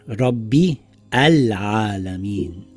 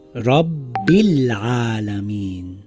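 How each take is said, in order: First: A separate 'a' vowel is sounded before 'al'. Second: The words link smoothly with no separate 'a' before 'al'. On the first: The speaker calls it wrong. "and not Rabbi Al-Alameen" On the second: The speaker calls it right. "So this will read Rabbil Alameen"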